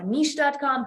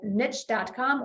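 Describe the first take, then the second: First: "niche" rhyming with leash; niche as "neesh". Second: "niche" rhyming with rich; niche as "nitch". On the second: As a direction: say "niche" with a short i and a tch ending. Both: Shown as a demonstration. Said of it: "however you say it".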